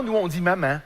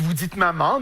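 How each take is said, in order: First: "maman" ending in a fronted nasal a; Québécois "maman". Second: "maman" ending in a back nasal ah; French "maman". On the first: Showing how Québec says it, "maman" with fronted final vowel. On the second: Showing how France says it, "maman" with back nasal ah. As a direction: say "maman" the Parisian way, rounded final nasal. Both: Shown as a demonstration.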